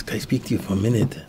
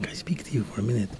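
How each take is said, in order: First: Said in the usual way. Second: Retold choked-up plea, softer and quicker. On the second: Rabbi asks the butcher for a minute, choked up. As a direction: ask it softly, voice half choked away. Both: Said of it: "As he's all choked up".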